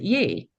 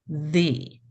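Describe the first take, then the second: First: The word begins with a y sound. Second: The word begins with a th sound. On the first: The speaker calls it wrong. "we would pronounce it ye" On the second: The speaker calls it right. "It should be pronounced the"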